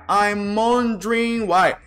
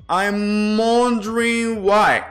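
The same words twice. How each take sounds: Both takes have the same delivery.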